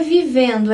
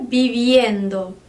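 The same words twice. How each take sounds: First: Vivendo with plain -endo, no i glide; Portuguese ending. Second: Viviendo stretched slowly, i glide before -endo; Spanish -iendo. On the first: Teacher showing students the wrong form, vivendo with plain -endo. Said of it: "Não é vivendo". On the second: Teacher correcting students, slow viviendo with a clear i glide. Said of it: "tem esse i, que é importantíssimo". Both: Shown as a demonstration.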